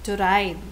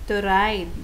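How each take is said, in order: Both takes have the same delivery.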